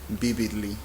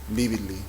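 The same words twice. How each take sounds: First: It starts with a two-lip 'b'-like sound. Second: It starts with a two-lip 'b'-like sound.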